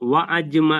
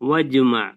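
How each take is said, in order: First: A glottal catch separates wa from ajma. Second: Wa runs smoothly into jma with no catch. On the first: The speaker calls it wrong. "എന്നല്ല" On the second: The speaker calls it right. "അവിടെ ആ ഹ- അലിഫ് ഉച്ചരിക്കേണ്ടതില്ല"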